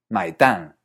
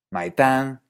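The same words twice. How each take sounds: First: Mai tan ending with a falling tan; contrasting tones. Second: Mai tan with a high start on Mai; contrasting tones. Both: Shown as a demonstration. Teacher contrasting mai tan for the bill and for eggs. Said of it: "Pero si uno dice".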